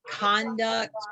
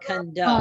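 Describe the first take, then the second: First: The stress is on the first syllable. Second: The stress is on the last syllable.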